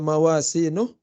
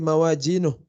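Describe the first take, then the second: First: The middle consonant is an s sound. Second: The middle consonant is a j sound. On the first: "kalau tidak dibaca mawasinuh" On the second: "biasanya jadi mawajinuh"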